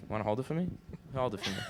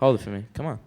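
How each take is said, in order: First: Quiet, gentle coaxing; soft coaxing. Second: Louder, firmer insistence; loud insistent. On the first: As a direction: softly coax the request. Coaxing him to hold it. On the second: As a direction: push the request harder. Repeating the request louder. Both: Acted.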